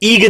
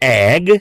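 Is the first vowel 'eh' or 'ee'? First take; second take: ee; eh. First: The word starts with an 'ee' vowel. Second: The word starts with an 'eh' vowel. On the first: The speaker calls it wrong. "આપણે ઈગ નહીં કહીએ" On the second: The speaker calls it right. "જેમ કે વંચાય છે એગ"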